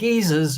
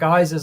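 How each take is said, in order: First: It is said with a non-American pronunciation. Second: It is said with an American pronunciation.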